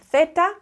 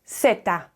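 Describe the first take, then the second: First: It is said with a mainland Spain pronunciation. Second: It is said with a Latin American pronunciation. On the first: "mainland Spain will pronounce the Z a Z, a theta" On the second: "Central and South America, we pronounce it zeta"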